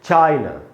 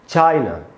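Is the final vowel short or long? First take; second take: short; short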